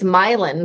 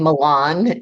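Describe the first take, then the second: First: It sounds like the words 'my land'. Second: It does not sound like 'my land'. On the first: The speaker calls it right. "It's Milan. ... this will be my land" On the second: The speaker calls it wrong. "I kept saying Milan, and they were like, "No, that's not right.""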